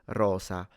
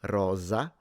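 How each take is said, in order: First: The S is voiceless, like an S. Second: The S is voiced, like a Z. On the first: This is the more common central and southern way. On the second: This is the more common northern way.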